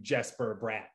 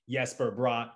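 First: The name begins with a hard J sound. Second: The name begins with a soft, non-J sound. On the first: This is the American way of saying it. "that's how they say it on TV" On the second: This is how it is said in the player's home country. "native land"

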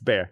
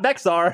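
First: The name sounds like 'bear' with no x sound. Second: The name is said with an audible x sound. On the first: The speaker calls it right. "It's bear" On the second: The speaker calls it wrong. "Not Bexar. That's what I used to say"

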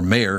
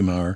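First: The surname is said as Mayer. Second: The surname is said as Maher. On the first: The speaker calls it right. "Thank God you told me to say Mayer because that's how he pronounces it" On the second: The speaker calls it wrong. "I called him Maher again"

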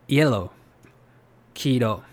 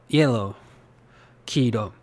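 No difference in how they are said.

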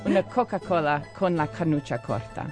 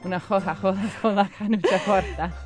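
First: The hard C sounds are pronounced as k. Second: The hard C sounds are pronounced as h. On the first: "How would that be in Italian with the C?" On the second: "And say it Tuscan?"

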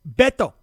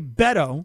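First: The name is said with Spanish-style sounds. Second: The name is said with English-style sounds. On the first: "There it is" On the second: "That's the anglicized version"

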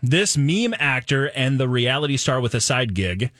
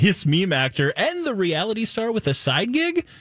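First: It is read as a statement, falling. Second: It is read as a question, rising.

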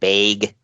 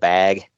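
First: The vowel is changed the Minnesota regional way. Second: The vowel is said the usual standard way.

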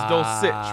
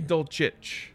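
First: The name ends with an s sound. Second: The name ends with a ch sound. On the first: This is how the name is actually said. "but it's Dulcich with like an S" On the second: This is how the name would be expected to sound. "It should be Dulcich with like a CH"

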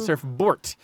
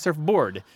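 First: The word is pronounced in an altered, imitated way. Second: The word is pronounced in the ordinary standard way. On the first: "She sounds like she's saying surfboard" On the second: "she doesn't sound like she's saying surfboard"

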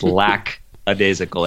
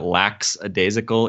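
First: The word begins with a 'lack' sound. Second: The word begins with a 'lax' sound. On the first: The speaker calls it right. "It's lackadaisical. It has nothing to do with lax" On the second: The speaker calls it wrong. "if you've ever been misled into thinking that lackadaisical is the way to pronounce that word, it's not"

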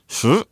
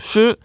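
First: The pitch rises from mid to high. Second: The pitch stays high and level.

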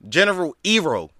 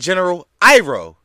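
First: Iroh is pronounced the way the film says it. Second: Iroh is pronounced the way the series says it. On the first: The speaker calls it wrong. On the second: The speaker calls it right.

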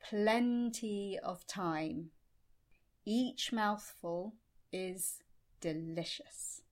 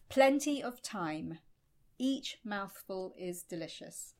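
First: It is said at a much slower pace. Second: It is said at a normal pace.

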